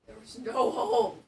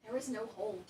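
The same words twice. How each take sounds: First: Louder and loud on hole, falling at the end; frustrated shout. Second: Said in the usual way. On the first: Real, not acted. Venting at the furniture piece, loud exasperated shout.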